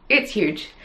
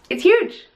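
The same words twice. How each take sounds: First: Said in the usual way. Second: Huge said much higher and louder; excited exclamation. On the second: Real, not acted. Knitter gushes over her huge finished shawl, excited. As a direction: squeal it out with delight.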